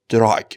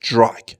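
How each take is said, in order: First: The word begins with a plain d sound. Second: The word begins with a j-like sound. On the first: The speaker calls it wrong. "نگفتم دراگ" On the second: The speaker calls it right. "گفتم دراگ"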